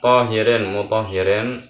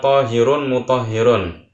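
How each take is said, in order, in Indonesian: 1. Kata-kata itu berakhir dengan bunyi -in. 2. Kata-kata itu berakhir dengan bunyi -un. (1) "dengan dikasroh, dengan dibaca jar" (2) "dengan didhammah ra'nya, dengan dibaca rafa"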